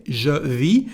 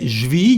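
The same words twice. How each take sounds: First: Said in the usual way. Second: "je vis" fused into one syllable "zhvee"; spoken French "je vis", said "j'vis"; contraction. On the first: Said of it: "you can say je vis". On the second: Shown as a demonstration. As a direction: drop the vowel of "je" in "je vis". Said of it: "If you don't want to say".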